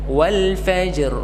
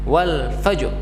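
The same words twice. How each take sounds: First: It is unhurried, with the j sound given full length. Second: It is rushed, with the j sound clipped. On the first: The speaker calls it right. "Tidak boleh terburu-buru karena jim harus diberikan haknya" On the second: The speaker calls it wrong. "menekan huruf jimnya ... Jadi terkesan terburu-buru"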